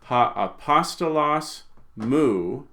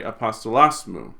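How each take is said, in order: First: "mu" as its own separate word after "apostolos"; slow, higher "apostolos", then a detached "mu"; words kept apart. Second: "apostolos mu" as one word, accent moved to "-los"; run together. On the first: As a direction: pause before "mu" and give it its own accent, slowly. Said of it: "would not say". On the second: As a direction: attach an unaccented "mu" straight onto "apostolos". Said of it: "as if that were part of the word". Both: Shown as a demonstration.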